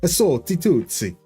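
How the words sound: It is said in a pseudo-Italian accent.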